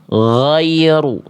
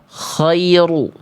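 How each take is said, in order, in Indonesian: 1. Bunyi pertamanya gh yang halus dan mengalir. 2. Bunyi pertamanya kh yang serak. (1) "yang tepat adalah yang D" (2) "berubah jadi huruf kho"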